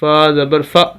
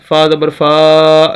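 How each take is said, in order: First: The short vowel is cut off with a jolt. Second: The short vowel is stretched out long. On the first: "झटका नहीं देना, ... ऐसे नहीं पढ़ना" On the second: "लंबा नहीं करना ... ऐसे नहीं पढ़ना"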